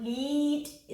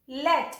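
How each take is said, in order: First: लीट said with a long ee, as in "leet"; long ee vowel. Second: लेट said with a short e, as in "let"; wrong short vowel. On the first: Teacher shows the right reading, long ee. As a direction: stretch the ee in लीट. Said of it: "आप सुन रहे हैं ई sound". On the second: Teacher shows the wrong reading, short e. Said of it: "अगर मैं इसे ऐसे पढ़ूँ". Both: Shown as a demonstration.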